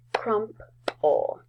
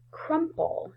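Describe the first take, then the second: First: "Crumple" as crump, pause, ul; split into syllables. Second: Said in the usual way. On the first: Shown as a demonstration. Teacher showing the second syllable, "Crumple" split as crump... ul. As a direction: give "Crumple" two separate beats. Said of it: "in the second syllable". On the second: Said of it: "How about the word".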